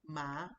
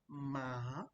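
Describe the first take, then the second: First: The pitch rises from mid to high. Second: The pitch dips down then rises. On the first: "ma is going up" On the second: "Then you have the down up"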